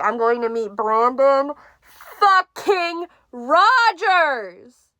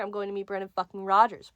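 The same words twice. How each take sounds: First: High, loud, very slow drawn-out squeal; excited drawn-out. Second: Said in the usual way. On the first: Retold or imitated. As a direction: stretch out every word in giddy excitement. Retelling her excited texts.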